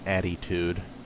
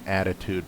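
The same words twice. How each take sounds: First: It is said Philadelphia-style, with an added y sound. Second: It is said plainly, with no added y sound.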